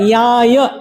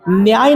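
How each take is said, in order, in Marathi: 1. तो नासिक्य तालव्य ध्वनीने सुरू होतो. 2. तो स्पष्ट n आणि y च्या जोडीने सुरू होतो. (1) "पालीचा उच्चार याय नाकातून आला पाहिजे" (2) "न्याय नाही बरं"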